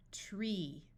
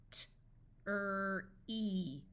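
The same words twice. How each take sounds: First: Said in the usual way. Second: T, then "er", then "ee", each separate; sounded out. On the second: Shown as a demonstration. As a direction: break "T-er-e" into three slow sounds. Phonics teacher sounds out, then blends.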